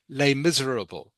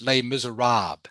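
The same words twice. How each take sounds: First: The title is said with an English pronunciation. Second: The title is said with a French pronunciation.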